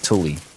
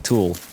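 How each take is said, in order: First: It sounds like 'Thule', not like 'tool'. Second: It sounds like the English word 'tool'. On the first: The speaker calls it right. "It's Thule" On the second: The speaker calls it wrong. "I think I was pronouncing tool wrong all along"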